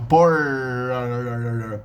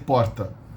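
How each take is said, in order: First: The r sounds like an American English r. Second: The r is a single quick tongue tap. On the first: This is the rural caipira pronunciation. "a pronunciation very similar to uh, the American English R" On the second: This is the standard São Paulo pronunciation. "I say porta"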